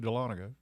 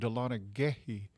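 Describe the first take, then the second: First: It is said the anglicized English way. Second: It is said the original Cherokee way. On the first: This is the changed form used by later settlers. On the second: This is how the original people said the name. "they pronounced it Dahlonega"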